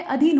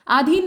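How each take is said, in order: First: अधीन said with a short a at the start; अधीन opened on a quick short a; correct pronunciation. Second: आधीन said with a long aa at the start; आधीन opened on a stretched aa; wrong pronunciation. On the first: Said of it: "अधीन होता है". (अधीन का सही उच्चारण, छोटे अ के साथ) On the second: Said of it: "आधीन नहीं होता है". (आधीन का गलत उच्चारण, लंबे आ के साथ) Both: Shown as a demonstration.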